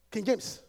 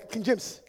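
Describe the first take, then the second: No difference in how they are said.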